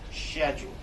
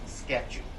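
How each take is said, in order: First: The word begins with an 'sh' sound. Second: The word begins with an 'sk' sound. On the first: "C H also can be pronounced as S H. For example" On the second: "Sometimes people will pronounce it as schedule"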